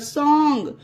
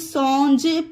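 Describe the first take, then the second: First: The word ends with a hard G sound. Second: The word ends with a soft J sound. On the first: The speaker calls it right. "इसे गा पढ़ा जाएगा" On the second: The speaker calls it wrong. "अब आप इसे सॉन्ज पढ़ेंगे तो ये गलत हो जाएगा"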